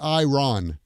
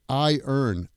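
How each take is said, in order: First: The r is said before the final vowel. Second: The word sounds like 'I' plus 'earn'. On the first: The speaker calls it wrong. "It's not iron" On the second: The speaker calls it right. "It's I earn"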